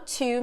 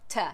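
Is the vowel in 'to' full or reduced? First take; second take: full; reduced. First: The vowel is full, like the word two. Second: The vowel is weak and reduced to schwa. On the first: "quando eu tô enfatizando aqui, eu falo to mesmo, como o number two" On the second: "na fala natural, em vez de to, a gente fala ta"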